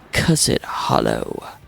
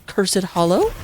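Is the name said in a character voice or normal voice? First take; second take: character voice; normal voice. First: It is said in a put-on character voice. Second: It is said in an ordinary speaking voice.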